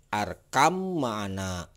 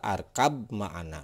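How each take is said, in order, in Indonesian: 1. Kata pertama berakhir dengan bunyi m. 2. Kata pertama berakhir dengan bunyi b. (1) "cara membaca yang benar ini adalah" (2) "Tidak dibaca ... ini salah"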